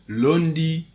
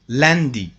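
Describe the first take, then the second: First: The first vowel sounds like 'oo'. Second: The first vowel sounds like nasal 'a'. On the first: The speaker calls it wrong. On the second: The speaker calls it right.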